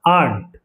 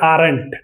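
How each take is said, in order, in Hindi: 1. इस शब्द में 'r' की ध्वनि मौन रहती है। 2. इस शब्द में 'r' की ध्वनि बोली जाती है। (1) "आर साइलेंट हो जाएगा" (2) "आप बोलेंगे आरंट, नहीं"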